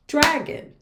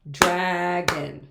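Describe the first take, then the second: First: Said in the usual way. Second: "dragon" in two beats, draa-gon; clapped-out syllables. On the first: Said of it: "We can clap out". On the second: Shown as a demonstration. Teacher clapping out dragon, long separated syllables. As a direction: hold "drag", then set down "on". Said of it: "We can clap out dragon".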